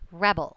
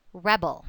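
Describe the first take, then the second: First: The stress is on the first syllable. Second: The same.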